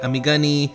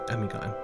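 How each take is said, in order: First: The name is said with four syllables. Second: The name is said with three syllables. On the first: "But people say it Amigani" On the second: "Amigon is a word I've made up"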